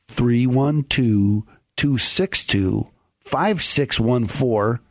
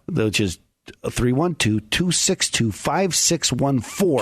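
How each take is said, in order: First: The number is said more slowly. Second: The number is said at normal speed.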